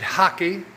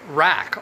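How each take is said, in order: First: It begins with an H-like sound. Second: It begins with an English R sound. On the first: "but they pronounce it hockey" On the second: "which is rack, R A C K"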